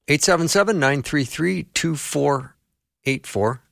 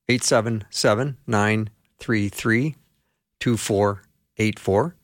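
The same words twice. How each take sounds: First: The number is read at a normal, quicker pace. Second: The number is read slowly and deliberately.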